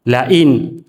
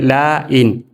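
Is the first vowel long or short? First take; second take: short; long. First: The first vowel is short and quick. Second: The first vowel is drawn out long. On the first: The speaker calls it right. "harus dibaca cepat" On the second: The speaker calls it wrong. "tidak boleh"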